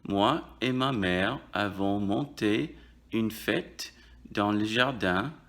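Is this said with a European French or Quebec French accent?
European French. It is said with a European French accent. "On dirait en France"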